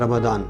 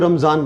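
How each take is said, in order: First: It uses the Arabic pronunciation. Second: It uses the Persian-influenced pronunciation. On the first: This is how Arabic speakers say it. "जो अरबी हैं रमदान बोलते हैं" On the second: This is how it is said in Persian-influenced regions. "यहाँ पे इसको रमज़ान बोला जाता है"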